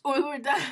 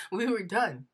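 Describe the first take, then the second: First: Much higher and louder, bursting with joy; thrilled cry. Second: Said in the usual way. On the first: Real, not acted. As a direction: throw it up high like a victory shout. Joyful finish of her story.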